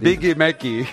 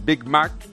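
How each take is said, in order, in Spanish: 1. Una vocal extra sigue a cada consonante final. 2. Las palabras terminan en sus consonantes finales.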